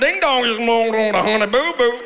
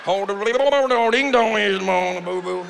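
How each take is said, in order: First: Lightly drawled Southern mimicry; a hint of Honey Boo Boo's Southern twang; mock Southern accent. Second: Slow, warbling mock Southern accent; mock yodel accent. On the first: Comic imitates reality TV family, light Southern accent. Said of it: "people have a hard time with my accent?". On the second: Comic mocks reality show accent, slow warbling Southern drawl. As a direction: slur it like yodeling underwater. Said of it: "sound like they're yodeling underwater".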